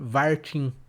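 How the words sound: The diminutive ending is cut short. "mas no sotaque aí do interior"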